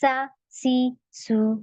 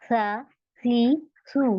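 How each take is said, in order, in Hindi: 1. व्यंजन में तेज़ सीटी जैसी सरसराहट है। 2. व्यंजन नरम है, इसमें सीटी जैसी सरसराहट नहीं है। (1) "मैं ऐसे नहीं पढ़ रही" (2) "मेरे में बिल्कुल सीटी की आवाज नहीं आ रही है।"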